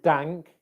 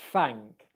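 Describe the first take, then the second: First: The word begins with a d sound. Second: The word begins with an f-like sound. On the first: "we don't want dank" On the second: "your bottom lip touching your top teeth. We don't want thank"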